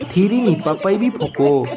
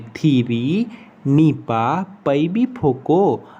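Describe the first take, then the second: First: It is said fast. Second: It is said at a normal speed.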